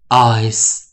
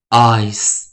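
First: It ends with a voiceless s sound. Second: It ends with a voiceless s sound.

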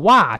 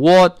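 First: An overly wide, exaggerated American vowel. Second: A British vowel with a smaller mouth opening. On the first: "但也不要夸张的what" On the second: "那个what 是英式发音啊"

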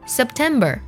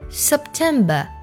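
First: The final syllable ends with an r sound. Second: The final syllable has no r sound. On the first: "美式的发音September" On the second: "英式的发音September"

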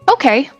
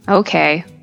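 First: It sounds positive and willing, in a normal pitch. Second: It sounds negative and reluctant, in a lower pitch. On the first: The speaker is happy to help. "I feel that it's an easy thing to do, I might say, okay" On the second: The speaker does not really want to help. "But if I'm busy or tired, I might say okay, using a lower tone"

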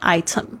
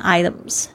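First: It has a British accent with a clear T. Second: It has an American accent with a D-like T.

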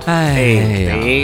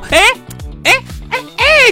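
First: The pitch falls on the interjection. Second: The pitch rises on the interjection. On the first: The speaker sounds old and resigned. The speaker calls it wrong. "降调就是啊" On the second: The speaker sounds young and full of energy. The speaker calls it right. "升调显得朝气蓬勃。"

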